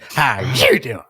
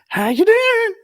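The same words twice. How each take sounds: First: It is said in a mad, irritated tone. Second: It is said in a pleased, agreeing tone. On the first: She is really annoyed. "if she was really pissed, ... She would get mad and say it like that" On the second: She agrees with what is happening. "if she's she was watching a, a show and she was agreeing with what was happening, it would be like"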